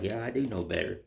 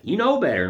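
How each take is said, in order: First: Softer, lower sheepish admission; sheepish reply. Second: Higher, louder scolding voice; stern rebuke. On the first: [name] answering his own scolding, soft and sheepish. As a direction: mumble it like a caught kid. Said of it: "I'm like". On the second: [name] scolding himself for a carving mistake, high stern rebuke. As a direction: wag a finger at yourself. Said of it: "I have to have a stern talk". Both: Retold or imitated.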